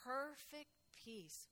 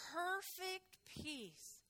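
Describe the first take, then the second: First: "Perfect peace" softer and slow, rising on "Perfect"; hushed echo. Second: "perfect peace" drawn out very slowly, higher, with "perfect" leaned on; savored phrase. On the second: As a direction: linger on "perfect peace", very slow. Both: Shown as a demonstration.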